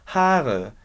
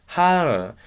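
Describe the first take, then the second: First: The word starts with a strong H sound. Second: The word starts with a strong H sound.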